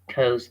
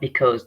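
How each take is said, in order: First: The first syllable is dropped, leaving cause. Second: The first syllable is kept, giving because. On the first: The speaker calls it right. "Because is pronounced as cause" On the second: The speaker calls it wrong. "not because"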